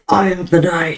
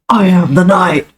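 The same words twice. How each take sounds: First: It is said more quietly. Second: It is said more loudly.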